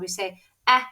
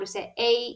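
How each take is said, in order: First: The vowel is a short sound. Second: The vowel is a long sound. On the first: "when we're saying a short vowel sound" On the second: "when we say a long vowel sound"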